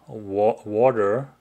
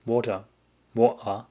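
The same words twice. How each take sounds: First: Careful attempt at a Seattle accent. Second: "Water" in a German accent. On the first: Streamer showing viewer their best Seattle accent. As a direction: say "water" like a Seattle local. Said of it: "That's my best Seattle accent". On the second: Streamer testing own German accent on water. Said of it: "Maybe water is a German accent then". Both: Shown as a demonstration.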